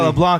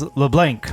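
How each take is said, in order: First: The final C sound is left silent. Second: The final C sound is pronounced. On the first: "you do not say the C" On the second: "you pronounce all the letters"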